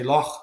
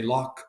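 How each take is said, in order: First: Loch with a rasped Scottish ch at the end; middle-class Glasgow pronunciation. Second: Loch ending in a hard k, like lock; working-class Glasgow pronunciation. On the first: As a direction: end loch on a throaty fricative, not a k. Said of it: "we like you, you're middle class". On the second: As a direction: close loch with a k stop. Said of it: "you're working class". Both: Shown as a demonstration.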